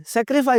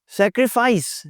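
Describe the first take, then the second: First: "सैक्रिफाई" with the final s dropped; wrong "sacrifice". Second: "सैक्रिफाइस" with a long final s; correct "sacrifice". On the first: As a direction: end "सैक्रिफाई" on the vowel, sack-ri-fy. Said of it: "कोई लफ्ज़ नहीं होता जी सैक्रिफाई". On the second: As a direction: finish "सैक्रिफाइस" on a drawn-out hiss. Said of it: "सैक्रिफाई लोग बोल होते हैं". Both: Shown as a demonstration.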